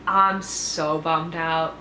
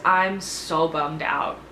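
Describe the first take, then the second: First: Bummed out, drawn out. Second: Bummed out. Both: Real, not acted.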